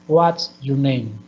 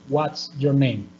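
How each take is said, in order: Both takes have the same delivery.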